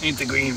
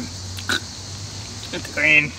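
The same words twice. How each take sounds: First: Said in the usual way. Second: Very slow whispered words; drawn-out whisper. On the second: Pretend. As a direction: stretch it out in a whisper. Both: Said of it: "repeats it drawn out".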